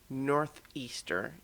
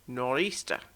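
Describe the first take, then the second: First: The word keeps the full 'north' with th. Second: The word drops the th, saying 'nor-easter'. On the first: The speaker calls it wrong. "this is not a northeaster" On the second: The speaker calls it right. "it is a nor'easter"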